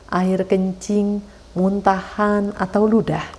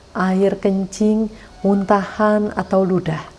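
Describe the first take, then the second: The two takes are said the same way.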